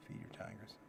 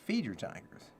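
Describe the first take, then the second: First: Breathy whispered heading. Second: Said in the usual way. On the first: Shown as a demonstration. Giving listeners the next tip in a whisper. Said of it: "repeats heading whispered". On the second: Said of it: "heading, then whispered repeat".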